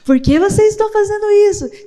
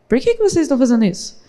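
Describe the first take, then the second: First: It sounds delighted and touched. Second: It sounds puzzled and suspicious.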